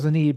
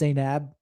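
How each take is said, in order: First: The name is said in a casual, altered way. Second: The name is said in its standard way. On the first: It is an affectionate personal nickname. The speaker calls it wrong. "I call her Zanib" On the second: It is how the name is properly said. The speaker calls it right. "the right way to say it is Zainab"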